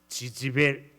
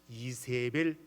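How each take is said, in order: First: The name begins with a 'j' sound. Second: The name begins with an 'ee' sound. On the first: This is how the name sounds in Hebrew. "뭐라고 하는가 하면 지지벨 이래" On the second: This is the usual Korean form of the name. "이세벨 이렇게 발음이 그렇지 않아요"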